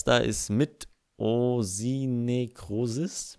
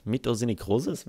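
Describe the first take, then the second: First: "Mitosinekrosis" drawn out very slowly, syllable by syllable; slow careful reading. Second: "Mitosinekrosis?" said at normal pace with a rising tune; unsure question. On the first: Reading a tricky player name aloud, very slow. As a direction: spell "Mitosinekrosis" out slowly with your voice. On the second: Checking his pronunciation with viewers, rising. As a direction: ask "Mitosinekrosis" back, doubting it. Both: Shown as a demonstration. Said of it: "wie man das ausspricht".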